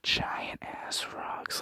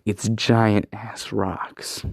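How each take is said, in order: First: Slow, voiceless whisper of giant ass rocks; awed whisper. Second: Said in the usual way. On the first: Retold or imitated. Narrator reacting to huge rocks, slow awed whisper. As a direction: breathe it out in slow awe. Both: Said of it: "And I'm like".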